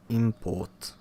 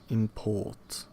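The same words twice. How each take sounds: First: The stress is on the first syllable. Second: The stress is on the second syllable. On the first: It is used as a noun. "Stress goes on the first syllable of the noun" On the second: It is used as a verb. "but on the second syllable of the corresponding verb"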